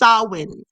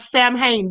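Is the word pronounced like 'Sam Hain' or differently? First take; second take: differently; Sam Hain. First: It is pronounced differently from 'Sam Hain'. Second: It is pronounced as written, like 'Sam Hain'. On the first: The speaker calls it right. "but it's Samhain. That's the way you say it" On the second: The speaker calls it wrong. "It looks like Sam Hain"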